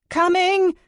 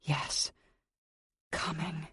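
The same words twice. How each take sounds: First: Much higher and louder, a breathless yell; breathless scream. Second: Soft breathy coming. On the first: Heroine screaming to the maids at the door, breathless. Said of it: "I scream again, this time a little more breathless". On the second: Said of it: "Coming for the bastard". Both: Acted.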